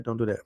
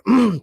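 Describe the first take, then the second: First: Softer, trailing "Don't do that."; low quiet "Don't do that." before the outburst; quiet warning. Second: Higher and louder "Don't do that."; host suddenly raising his voice at listeners; sudden loud warning. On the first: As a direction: let "Don't do that." drop off almost to a murmur. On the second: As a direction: burst out with "Don't do that.". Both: Acted. Repeated warning, fading then shouted.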